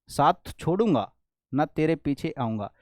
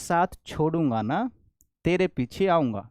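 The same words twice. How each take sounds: First: The pause comes before 'na'. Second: The pause comes after 'na'.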